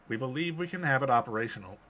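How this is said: It is read in a flat, computer-like voice. A machine is reporting it. "I was just doing a generic computery voice"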